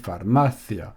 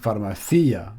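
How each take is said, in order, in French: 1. L'accent tombe sur la syllabe 'ma'. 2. L'accent tombe sur la syllabe 'ci'. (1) "on dit pharmacia" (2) "S'il y aurait un accent sur le I, ça aurait fait pharmacia"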